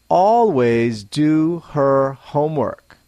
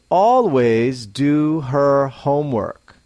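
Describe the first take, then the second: Both takes have the same delivery.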